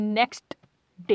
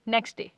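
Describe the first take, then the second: First: नेक्स्ट with the final t clearly sounded; नेक्स्ट डे, t fully pronounced. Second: नेक्स्ट डे with the t dropped, running into डे; नेक्स्ट डे said as necks-day. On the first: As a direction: sound the t at the end of नेक्स्ट before डे. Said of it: "एंड में टी की आवाज़ आती है". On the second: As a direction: swallow the t in नेक्स्ट. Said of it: "किस तरीके से pronounce कर देते हैं". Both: Shown as a demonstration.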